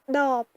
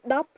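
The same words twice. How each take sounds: First: The final sound is not cut short. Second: The final sound is cut short. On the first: It means bottle. "S'il n'y avait pas le banta" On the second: It means ten. "si on rajoute le banta"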